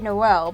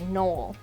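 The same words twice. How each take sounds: First: The name is said the American way. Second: The name is said the British way.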